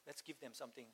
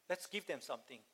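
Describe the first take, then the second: First: Much softer echo. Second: Said in the usual way. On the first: Retold or imitated. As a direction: drop almost to a hush on the repeat. Repeating Jesus' words twice.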